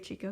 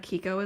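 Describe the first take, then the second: First: The word begins with a ch sound. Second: The word begins with a k sound. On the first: The speaker calls it wrong. "but I always say Chico still" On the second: The speaker calls it right. "Kiko is the right way to say that"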